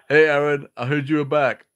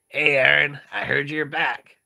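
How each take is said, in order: First: It is read without the cartoonish character voice. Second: It is read in a cartoonish character voice. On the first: The speaker calls it wrong. "oh shit, I got it backwards" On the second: The speaker calls it right. "with a Sonichu type voice"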